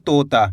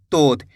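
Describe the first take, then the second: First: तोता with the final ता stretched long, said lower; drawn-out ending. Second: तोत ending short on a bare त, said lower; half final sound. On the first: Teacher to students showing the full आ, stretched तोता. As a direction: pull out the ता in तोता. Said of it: "ता को अपन खींच के पढ़ रहे हैं". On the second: Teacher showing how to read without the final आ, short तोत. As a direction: cut the last त of तोत with no आ. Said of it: "इस तरीके से पढ़ देते हैं". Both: Shown as a demonstration.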